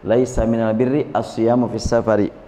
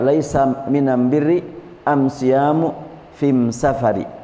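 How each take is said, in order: First: The article is pronounced with an l sound. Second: The article is pronounced with an m sound. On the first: It is the standard original form. "Tulisan yang aslinya" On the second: "orang yang dibawa bicara Rasulullah biasa menyebut al jadi em"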